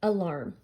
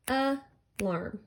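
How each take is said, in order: First: Said in the usual way. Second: "Alarm" broken into two beats, a, larm; teacher sounding out "Alarm" syllable by syllable; split into syllables. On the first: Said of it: "look at this word". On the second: Shown as a demonstration. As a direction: say "Alarm" with a gap between a and larm. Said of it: "That's a two-syllable word".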